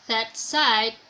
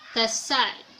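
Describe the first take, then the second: First: The first word ends in a plosive stop. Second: The first word ends in an s sound. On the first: "say the word that side" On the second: "the plosive ts becomes fricative s, so it is pronounced the side"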